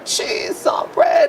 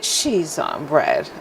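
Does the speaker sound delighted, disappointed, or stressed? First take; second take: stressed; disappointed. First: It is said in a stressed, upset tone. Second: It is said in a disappointed tone. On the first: The speaker is under stress. "I am in stress" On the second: The speaker is let down. "and I am disappointed"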